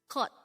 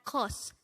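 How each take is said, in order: First: The syllable ends with a T sound. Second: The syllable ends with an S sound. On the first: The speaker calls it right. "it's cot" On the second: The speaker calls it wrong. "it's not cos"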